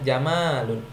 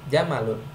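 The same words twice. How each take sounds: First: The vowel after the m is long. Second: The vowel after the m is short. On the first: It means beautiful. The speaker calls it wrong. "Tidak boleh kita bilang jamalun" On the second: It means camel. The speaker calls it right. "mimnya itu tidak panjang"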